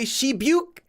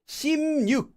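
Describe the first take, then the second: First: The syllables are linked with a plain b sound. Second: The syllables are linked with an added n sound. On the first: The speaker calls it wrong. "it sounds messed up" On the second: The speaker calls it right. "it gets pronounced as this"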